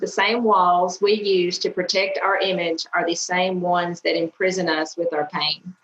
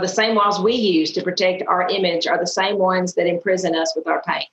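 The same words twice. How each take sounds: First: It is said slowly. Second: It is said fast.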